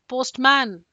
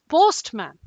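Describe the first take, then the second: First: The stress is on the second part, man. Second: The stress is on the first part, post. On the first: The speaker calls it wrong. "it's like I'm calling the postman from a very uh, far away distance" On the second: The speaker calls it right. "No, it's postman"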